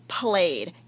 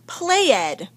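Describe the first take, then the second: First: The ending is just a d sound. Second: The ending is said as a separate syllable. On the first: The speaker calls it right. "Let me try it without the S sound" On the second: The speaker calls it wrong. "that doesn't sound right"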